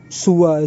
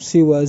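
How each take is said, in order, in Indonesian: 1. Vokal pertama adalah u. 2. Vokal pertama adalah i. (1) "ada di antara mereka yang mendomahkan sin" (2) "Ada yang mengkasrohkan sin sehingga menjadi siwa"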